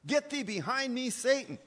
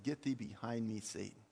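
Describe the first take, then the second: First: High, forceful rebuke; Jesus rebuking Peter. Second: Low, understated rebuke, dropping away softly; Jesus quietly rebuking. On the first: Jesus turns on Peter over his natural thinking, forceful high rebuke. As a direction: ring it out as a raised-voice command. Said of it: "when Jesus looked at Peter and said this". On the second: Jesus turns around to answer Peter, low subdued rebuke. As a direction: say the command low, letting the last word fall away. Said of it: "Jesus turned around and said". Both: Retold or imitated.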